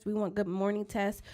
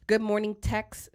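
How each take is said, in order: First: "tests" said instead of "texts", the x dropped; "good morning tests" with the final "texts" blurred to "tests"; slurred slip. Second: "texts" said slowly with a clear ks; "Good morning texts" repeated carefully, ks stretched; careful correction. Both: Real, not acted. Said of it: "Sorry, y'all. Sometimes my words come out".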